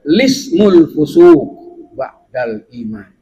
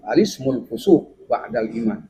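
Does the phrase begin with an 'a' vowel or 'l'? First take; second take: l; a vowel. First: The phrase begins directly with the 'l' sound. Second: The phrase begins with an 'a' vowel before 'l'. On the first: "Yang kedua boleh dengan" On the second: "Itu yang pertama"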